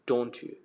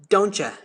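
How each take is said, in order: First: The 'you' is said fully, without blending. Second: The 't' and 'you' blend into 'cha'. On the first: "Don't you in British English?" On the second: "in American it's like it's it's gonna sound like don't ya"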